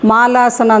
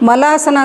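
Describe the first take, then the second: First: The first vowel is long. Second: The first vowel is short. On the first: It names the garland posture. The speaker calls it right. "ಮಾಲಾಸನ ಅಂತ ಇದ್ರ ಹೆಸರು" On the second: The word means something else. The speaker calls it wrong. "ಮಲಾಸನ ಅಂತ ಹೇಳ್ತಾರೆ ಕೆಲವರು, ಅದು ಮಲಾಸನ ಅಲ್ಲ"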